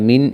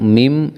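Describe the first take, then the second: First: The word ends with an n sound. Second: The word ends with an m sound. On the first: "മിൻ എന്നുള്ളത്" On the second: "മിം എന്നായി ഉച്ചരിക്കണം"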